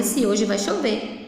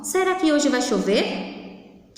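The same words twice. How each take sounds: First: Said in the usual way. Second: Slow question, "chover" rising at the end; question intonation. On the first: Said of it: "eu não estou afirmando". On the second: Shown as a demonstration. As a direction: wonder aloud, lifting "chover". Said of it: "Olha o final, eu estou fazendo uma pergunta".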